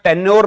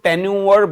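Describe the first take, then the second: First: The word ends with a short 'yor' sound. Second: The word ends with a drawn-out 'yoo-er' sound. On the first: The speaker calls it wrong. "टेन्योर नहीं बोलते इसको" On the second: The speaker calls it right. "टेन्यूअर बोला जाता है"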